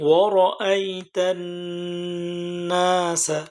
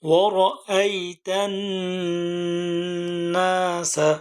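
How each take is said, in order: The two takes are said the same way.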